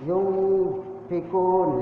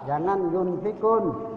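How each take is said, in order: First: The n is hidden and nasal, like ng. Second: The n is pronounced clearly and fully. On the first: The speaker calls it right. "Jadi dibunyinya di hidung" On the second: The speaker calls it wrong. "Jangan jelas"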